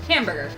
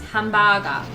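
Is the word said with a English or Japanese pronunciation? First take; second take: English; Japanese. First: It is said with an English pronunciation. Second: It is said with a Japanese pronunciation.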